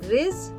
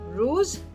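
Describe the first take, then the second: First: The vowel is an ee sound. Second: The vowel is an oo sound. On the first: "Some people pronounce it riz" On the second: "Rice or kanin is called ruz"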